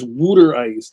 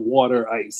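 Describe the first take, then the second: First: The first vowel sounds like 'oo' in 'wood'. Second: The first vowel sounds like 'aw' in 'saw'. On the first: The speaker calls it right. "it's Wooter ice" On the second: The speaker calls it wrong. "not water ice"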